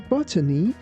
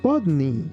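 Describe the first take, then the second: First: It is pronounced in a non-American way. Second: It is pronounced in the American way. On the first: The speaker calls it wrong. "it's not the end of the world" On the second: The speaker calls it right. "in U S pronunciation, it's better to say botany"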